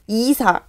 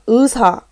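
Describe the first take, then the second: First: The first syllable has a plain 'ee' vowel. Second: The first syllable has the diphthong 'ui'. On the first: The speaker calls it wrong. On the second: The speaker calls it right.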